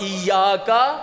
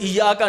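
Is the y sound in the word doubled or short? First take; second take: doubled; short. First: The y sound is doubled and held. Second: The y sound is short and single. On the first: The speaker calls it right. "ये के ऊपर तशदीद है, ऐसे पढ़ना है" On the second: The speaker calls it wrong. "ईया का नहीं कहना है"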